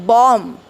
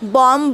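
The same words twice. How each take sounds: First: The word ends on the m sound. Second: The word ends with an audible b sound. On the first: The speaker calls it right. "It is बॉम्ब" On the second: The speaker calls it wrong. "बॉम्ब नाही आहे"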